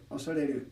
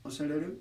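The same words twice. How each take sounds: First: "osareru" with falling pitch; first pitch pattern. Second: "osareru" with rising pitch; second pitch pattern. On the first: Teaching a pitch contrast, falling pitch. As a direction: say "osareru" dropping after the first mora. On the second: Teaching a pitch contrast, rising pitch. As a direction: say "osareru" rising toward the end. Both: Shown as a demonstration. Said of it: "if I say".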